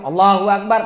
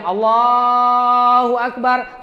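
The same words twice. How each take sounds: First: The takbir is said short. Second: The takbir is drawn out long.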